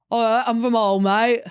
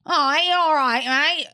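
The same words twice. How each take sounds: First: Loud imitation of a Hull accent. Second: Put-on high, loud Hull woman's accent; ugly Hull accent. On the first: Imitating an ex from Hull, exaggerated Hull accent. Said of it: "he talked like that". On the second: Mocking the women of Hull, high ugly Hull accent. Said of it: "the women have the ugliest accents".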